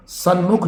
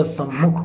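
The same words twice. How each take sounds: First: सन्मुख as "san-mukh"; n before m. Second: सम्मुख as "sam-mukh"; double m. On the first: Teacher showing the mistake, सन्मुख with "nm". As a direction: sound an "n" in सन्मुख. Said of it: "सन्मुख नहीं होता". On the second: Teacher correcting the word, सम्मुख with no "n". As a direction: hold the "mm" in सम्मुख. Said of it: "सम्मुख होता है". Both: Shown as a demonstration.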